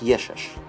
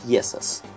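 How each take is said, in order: First: It is said with sh sounds, Cretan style. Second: It is said with plain s sounds, standard Greek.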